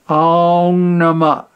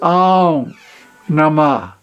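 First: The words run together without a pause. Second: There is a short pause after Aum. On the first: The speaker calls it wrong. "you never say like Aum Namah" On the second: The speaker calls it right. "There's that half beat of silence at the end"

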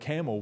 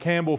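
First: The name is said with no B sound. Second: The name is said with a B sound.

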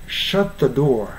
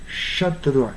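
The two takes are said the same way.

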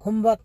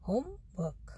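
First: The two parts run together as one. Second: The two parts are said separately. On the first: The speaker calls it wrong. "Homework नहीं" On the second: The speaker calls it right. "तो अलग अलग इनका"

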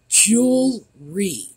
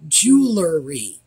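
First: The word is said with two syllables. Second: The word is said with three syllables. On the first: The speaker calls it right. "Two syllables" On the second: The speaker calls it wrong.

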